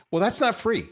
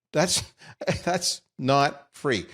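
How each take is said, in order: First: Not punched up high, a dry jab; sarcastic not free; wry emphasis. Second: Slow amused repeat with a laugh; chuckling not free. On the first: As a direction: lean on not like it's obvious. Sarcastic aside about moderator costs. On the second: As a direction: savor it, chuckling through. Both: Real, not acted.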